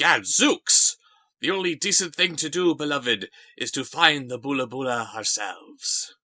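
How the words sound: It is read in a smooth, suave actor's voice. The speaker calls it right. "throw a little Raul Julia at our way"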